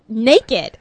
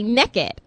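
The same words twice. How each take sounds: First: It is said with a standard US pronunciation. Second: It is said with a Southern US pronunciation. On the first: The speaker calls it right. "but the word is naked" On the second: The speaker calls it wrong. "I'm from the South, and so there are certain words I just kind of drop"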